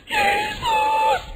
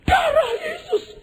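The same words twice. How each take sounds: First: Long, very high wail; drawn-out panicked scream; imitated frightened believer. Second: Very high, slow shriek; mock terrified invocation; imitated Pentecostal cry. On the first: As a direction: shriek the name in mock terror. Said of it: "saya bingung gini". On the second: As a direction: scream like a panicked Pentecostal invoking protection. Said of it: "orang Pentakosta ini".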